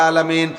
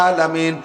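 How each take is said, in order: No difference in how they are said.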